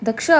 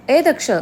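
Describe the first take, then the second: First: Said in the usual way. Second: Higher-pitched acted call; insistent calling out. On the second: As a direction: call out to rouse someone, pitched up. Calling again, no answer came. (झोपलेल्याला जरा चढ्या स्वरात हाक)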